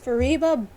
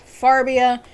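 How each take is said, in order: First: The name is said as Fa-ri-ba. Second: The name is said as Far-bi-a. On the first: This is how the owner says the name. The speaker calls it right. "my name is Fariba" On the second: This is how others often say the name. The speaker calls it wrong. "or even worse, Farbia"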